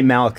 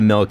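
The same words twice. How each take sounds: First: The vowel has a y-like glide before the l. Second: The vowel is plain with no glide. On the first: This is how Canadians say it. "we say milk" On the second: This is how others say it. "instead of milk"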